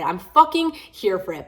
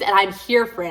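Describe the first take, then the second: First: Slow, with the stress landing hard on "fucking"; emphatic repeat. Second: Said in the usual way. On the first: Real, not acted. Repeating to a viewer, slow stress on "fucking". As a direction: lean on "fucking" and drag it out.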